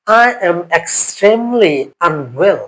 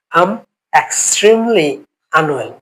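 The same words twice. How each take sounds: First: Slow model phrase. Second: Said in the usual way. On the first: Shown as a demonstration. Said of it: "teacher models advanced phrase". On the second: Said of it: "repeats phrase normally".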